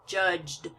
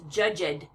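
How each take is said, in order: First: The final consonants blend together with no extra syllable. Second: The ending is said as a separate extra syllable. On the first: The speaker calls it right. "You don't want to have to pronounce the E sound" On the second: The speaker calls it wrong. "I've heard a, a few of you pronouncing this judged"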